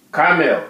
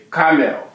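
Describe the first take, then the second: No difference in how they are said.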